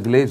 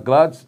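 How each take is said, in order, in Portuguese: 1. A primeira vogal soa como 'ay'. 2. A primeira vogal soa como 'ah'. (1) "não é Gleides, nós falamos aqui como Gleides" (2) "então é Gladys"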